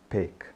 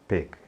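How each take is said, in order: Both takes have the same delivery.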